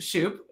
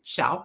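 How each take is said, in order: First: The vowel sounds like 'oo' in 'shoot'. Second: The vowel sounds like 'ow' in 'shout'. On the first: The speaker calls it wrong. "usually pronounced Shoop" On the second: The speaker calls it right. "It's like shout with a P"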